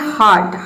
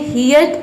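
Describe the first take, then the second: First: The vowel sounds like 'ar'. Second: The vowel sounds like 'ear'. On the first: The speaker calls it right. "ये होता है हार्ट" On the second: The speaker calls it wrong. "ये हियर्ट या फिर हर्ट नहीं होता है"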